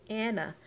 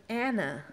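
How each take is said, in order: Both takes have the same delivery.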